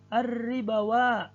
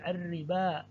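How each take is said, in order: First: A 'w' sound is pronounced before the final vowel. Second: No 'w' sound; it ends on a long vowel. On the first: "tertulis wawu" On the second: "wawunya ini tidak dibaca, malah alifnya yang dibaca"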